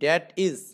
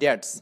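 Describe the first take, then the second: First: It is said as two separate full words. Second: It is said as one shortened word. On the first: "এটাকে এভাবে বলতে পারেন এখানে ড্যাট ইজ" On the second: "এই সংক্ষিপ্ত বলা যায়"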